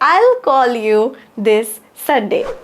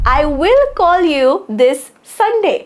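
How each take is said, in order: First: I and will are merged into one syllable. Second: I and will are said as two separate words.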